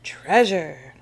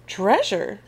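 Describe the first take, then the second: First: Crew's cry. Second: TREASURE as a question, pitch jumping up. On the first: Pirate crew setting off on a hunt, crying out. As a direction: call out "Treasure" firmly, falling at the end. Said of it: "cries the crew". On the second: First mate hearing of a treasure map, questioning. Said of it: "says First Mate Callie". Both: A narrator's reading.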